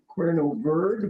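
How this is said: The name is said with a Spanish pronunciation. This is the original Spanish form. "I think it's better today in Spanish"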